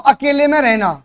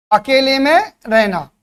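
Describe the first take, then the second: First: Said in the usual way. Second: अकेले में drawn out, a pause, then रहना; slow emphatic repeat. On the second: Real, not acted. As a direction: stretch अकेले में and let रहना fall separately. Teacher repeats phrase for emphasis.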